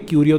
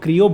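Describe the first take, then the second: First: The name begins with a separate kyu sound. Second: The name begins with a blended kr sound. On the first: The speaker calls it wrong. "क्यूरियो तो नहीं" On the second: The speaker calls it right. "इसको क्रियो बोलेंगे"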